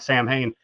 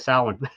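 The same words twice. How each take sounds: First: It is pronounced just as it is spelled. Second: It is pronounced the traditional Gaelic way. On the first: It is read straight off the page. "don't pronounce it the the Celt the Gallic way or whatever, it would look like Samhain" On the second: It names the Celtic festival. "when I'm talking about the the the Celtic day"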